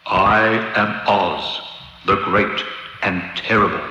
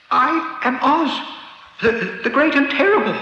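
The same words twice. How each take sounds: First: Solemn booming Oz. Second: High, frightened, stammering voice; trembling voice. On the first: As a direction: intone it slowly like a mighty god. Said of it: "it said solemnly". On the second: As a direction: stammer it out, terrified. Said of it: "in a trembling voice". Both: A narrator's reading.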